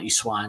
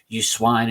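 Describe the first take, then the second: First: It is said in a cheeky, northern tone. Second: It is said in an angry tone.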